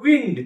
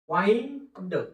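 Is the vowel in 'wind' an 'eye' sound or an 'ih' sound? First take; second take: ih; eye. First: The vowel is a short 'ih' sound. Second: The vowel is a long 'eye' sound. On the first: It means air or breeze. "याचा दुसरा एक उच्चार होतो विंड" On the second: It means to wrap or coil. "याचा उच्चार आई"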